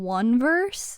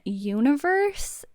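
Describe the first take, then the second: First: The name starts with a 'won' sound. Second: The name starts with a 'you-nee' sound. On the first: This is how the spelling seems to read. The speaker calls it wrong. "I want to call them one verse" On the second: This is the official pronunciation of the name. The speaker calls it right. "That's how you say it"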